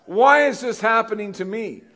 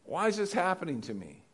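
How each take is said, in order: First: Loud, high-pitched mock wail to God; indignant complaint. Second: Softer, toned-down plea to God; subdued complaint. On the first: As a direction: cry out in hammed-up protest. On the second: Acted. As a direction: ask it quietly, after the big outburst. Repeats the complaint, now more softly.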